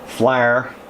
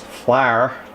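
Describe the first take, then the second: First: The word is said in an Appalachian accent. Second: The word is said in a standard accent.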